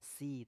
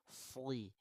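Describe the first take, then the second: First: The s sound is light, like sin. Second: The s sound is heavy, like shad. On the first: The speaker calls it wrong. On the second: The speaker calls it right.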